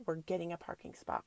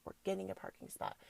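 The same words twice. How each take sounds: First: Said in the usual way. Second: Softer and quicker repeat of the mantra; murmured quickly to herself, like a manifesting chant; quieter, faster mantra. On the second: Retold or imitated. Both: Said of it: "and I'm like".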